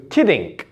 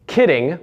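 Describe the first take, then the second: First: Kiddink ending in a hard K; added K ending. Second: Said in the usual way. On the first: Shown as a demonstration. Coach shows Russian endings, kiddink with final K. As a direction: close kiddink with a small K after the G. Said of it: "would be turned into". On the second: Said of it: "Like the word".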